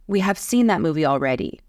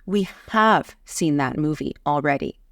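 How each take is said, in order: First: Said in the usual way. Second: Punched, lengthened "have"; stress on HAVE. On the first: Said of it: "it sounds different than". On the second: Shown as a demonstration. Teacher contrasting two takes, emphatic stress on "have". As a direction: set "have" apart with heavy stress. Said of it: "add emphasis to the auxiliary verb have".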